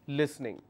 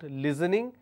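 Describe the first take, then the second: First: The middle consonant is a hissing s sound. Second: The middle consonant is a buzzing z sound. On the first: The speaker calls it right. "it's listening" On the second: The speaker calls it wrong. "People replace that the, the s sound with the z sound. They end up saying listening. It's not listening"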